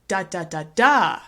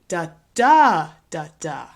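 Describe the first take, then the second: First: The stress is on the fourth syllable. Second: The stress is on the second syllable. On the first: "if we put the stress at the end" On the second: "Here's another stress pattern that we see with four-syllable words"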